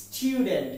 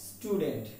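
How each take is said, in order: First: Student said as "styu-dent"; corrected pronunciation. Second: Student said as "stu-dent"; plain "stoo" opening in student, no y-glide; wrong pronunciation. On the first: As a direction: put a y-glide after the t in student. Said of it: "But the fact is the pronunciation is". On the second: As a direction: say student without the y sound. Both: Shown as a demonstration.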